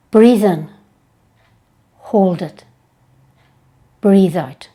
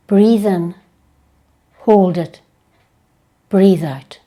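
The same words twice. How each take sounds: The two takes are said the same way.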